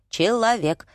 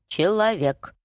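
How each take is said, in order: First: Загадочный птичий возглас повыше; повтори повыше, как голос из темноты; таинственный голос. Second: Раздельное, загадочное птичье слово; произнеси как таинственный голос над головой; таинственный голос ворона. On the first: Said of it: "повторил голос". (голос говорящей птицы повыше) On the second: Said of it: "послышался тихий шелест и голос". (голос говорящей птицы) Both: A narrator's reading.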